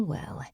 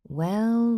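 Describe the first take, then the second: First: Soft falling witchy titter; fairy tale witch. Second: High tittering witch voice; fairy tale witch. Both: A narrator's reading. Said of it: "she tittered, sounding like a witch in a fairy tale".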